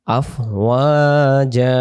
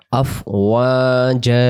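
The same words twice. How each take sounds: First: আফওয়াজা aloud and slow, final আ held one alif; voiced demo. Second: আফওয়াজা whispered slowly, ending in a long আ; whispered demo. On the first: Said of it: "এক আলিফ টেনে টানতে হয়". (জোরে আফওয়াজা, শেষে এক আলিফ) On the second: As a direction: breathe আফওয়াজা slowly with the final আ stretched. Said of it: "এক জবর বাদ দিয়ে এক আলিফ". (ফিসফিস করে আফওয়াজা, শেষে এক আলিফ টেনে) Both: Shown as a demonstration.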